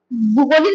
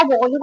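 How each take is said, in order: First: भूगोलिक said with a plain u sound, bhoo-golik; teacher voices the wrong form भूगोलिक, with u; wrong form shown. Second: भौगोलिक said with the au sound, bhau-golik; teacher gives the right form भौगोलिक, with au; correct form shown. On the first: Teacher shows students the wrong way, saying भूगोलिक with u. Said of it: "नहीं होता". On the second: Teacher corrects students, saying भौगोलिक with au. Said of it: "होता है". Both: Shown as a demonstration.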